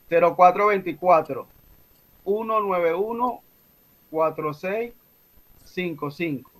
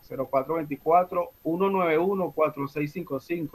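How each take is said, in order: First: The number is said slowly. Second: The number is said fast.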